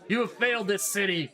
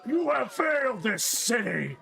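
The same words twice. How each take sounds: First: It is said in a looser, less committed voice. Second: It is said in a full put-on character voice.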